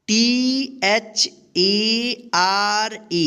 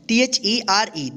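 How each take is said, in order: First: Slow spelling. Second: Quick spelling. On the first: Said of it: "इसको क्या पढ़ेंगे?". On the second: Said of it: "यहाँ पे ध्यान रखिएगा". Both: Shown as a demonstration.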